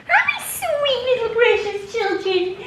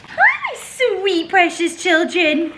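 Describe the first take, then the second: First: Even higher sing-song coo. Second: Much higher, slow coo with a laugh. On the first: Greeting the dogs again. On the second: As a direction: coo to the dogs. Greeting the dogs. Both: Real, not acted.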